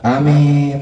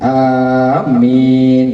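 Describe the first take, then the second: First: The first vowel leans toward an e sound. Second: The first vowel is long and m is doubled. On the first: "amin menggunakan imalah" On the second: "dengan tasdid huruf mim beserta membuat mad alif yang pertama"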